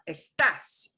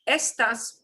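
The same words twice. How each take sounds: First: The stress is on the second syllable. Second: The stress is on the first syllable. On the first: It means you are. "you are" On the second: It means these. "when you punch the e part, estas means these"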